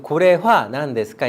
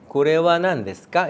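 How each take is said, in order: First: The particle is pronounced ha. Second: The particle is pronounced wa. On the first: The speaker calls it wrong. "이게 아니라" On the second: The speaker calls it right. "조사로 쓸 때는 하가 와로 된다"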